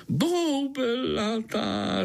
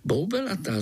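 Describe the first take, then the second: First: Very slow, high, savoured boubelatá; beaming mosquito boubelatá; delighted. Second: Said in the usual way. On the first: Acted. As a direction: drawl out boubelatá with relish. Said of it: "rozzářil se komár". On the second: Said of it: "řekl Pája".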